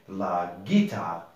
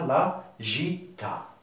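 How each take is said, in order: First: The g is a hard g sound. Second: The g is a soft j sound. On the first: The speaker calls it right. "pour qu'on puisse dire Guy et ce n'est pas J" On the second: The speaker calls it wrong. "ce n'est pas"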